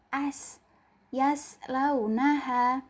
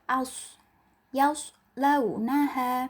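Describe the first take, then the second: First: The first vowel is said with spread lips. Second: The first vowel is said with rounded lips. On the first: The speaker calls it wrong. "tidak membentukkan bibir teman-teman menjadi huruf o" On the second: The speaker calls it right. "dibaca aus dengan bibir membentuk huruf o"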